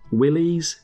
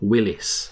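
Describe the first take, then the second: First: The name ends with an 'eez' sound. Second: The name ends with an 'iss' sound. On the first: "is it a Willy" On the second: "or is it a Willis?"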